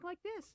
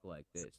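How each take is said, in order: First: The voice is high and squeaky. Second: The voice is low and manly. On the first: This is how he talked before training. The speaker calls it wrong. "he actually had a squeaky voice and he talked like this" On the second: This is how he talked after training. The speaker calls it right. "she taught him to talk like this, like to be a fucking man"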